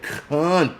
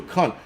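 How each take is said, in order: First: "cunt" drawn out slowly with a hard final T; emphasis on the T. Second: Said in the usual way. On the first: Retold or imitated. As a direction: stretch "cunt", then punch the T. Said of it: "he put that emphasis on the T". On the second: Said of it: "It's not the actual word".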